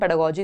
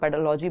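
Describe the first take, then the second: First: The third syllable starts with a g sound. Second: The third syllable starts with an l sound. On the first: The speaker calls it right. "हम पेडागोजी इसको बोलेंगे" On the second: The speaker calls it wrong. "लॉजी बोला जा नहीं सकता क्योंकि ... इसमें कहीं एल का साउंड है नहीं"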